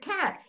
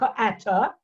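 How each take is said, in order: First: No extra vowel follows the first k sound. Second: An extra vowel follows the first k sound. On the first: The speaker calls it right. "it's cat" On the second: The speaker calls it wrong. "it's not k-ata"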